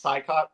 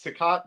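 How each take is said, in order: First: Sicott said as SIGH-cot; heard pronunciation. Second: Sicott said as SIH-cot; old pronunciation. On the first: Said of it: "I've heard it pronounced". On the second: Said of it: "used to think it was pronounced". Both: Shown as a demonstration.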